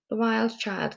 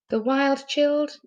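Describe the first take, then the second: First: The last word has a long i vowel. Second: The last word has a short i vowel. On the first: The speaker calls it right. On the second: The speaker calls it wrong.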